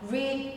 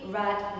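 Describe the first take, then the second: First: The vowel is long, like 'reed'. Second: The vowel is short, like 'red'. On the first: It is the present tense. "So this one is read" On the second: It is the past tense. "E A sound pronounced as ah"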